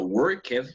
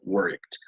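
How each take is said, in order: First: The ending is an extra 'ed' syllable. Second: The ending is a short T sound. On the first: The speaker calls it wrong. "no se pronuncia worked" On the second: The speaker calls it right. "se pronuncia worked"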